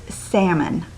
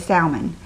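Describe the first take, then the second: First: It does not sound like salmonella's start. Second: It sounds like the start of salmonella. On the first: This is the standard pronunciation. The speaker calls it right. "is how you're supposed to say it" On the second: This is how people say it in the South. The speaker calls it wrong. "in the South, for some reason, we say, just like salmonella"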